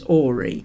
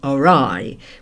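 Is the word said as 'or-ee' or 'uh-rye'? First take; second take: or-ee; uh-rye. First: The word is said as OR-ee. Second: The word is said as uh-RYE.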